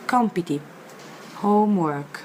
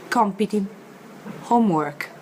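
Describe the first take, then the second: No difference in how they are said.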